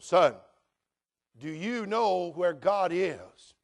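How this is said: It is said in a solemn, preacher-like tone.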